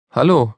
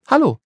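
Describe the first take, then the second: First: A lightly voiced boy's hello, near the narrator's own; the boy's greeting. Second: Put-on bright high girl's hello; a curious girl calls up to the wall; Polly's greeting. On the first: The boy on the wall answers Polly, lightly voiced. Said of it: "sagte der Junge". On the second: Polly greets the boy at the wall, high and bright. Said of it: "sagte Polly". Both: A narrator's reading.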